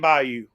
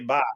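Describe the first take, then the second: First: It is said fully, as two syllables. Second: It is clipped short to one syllable.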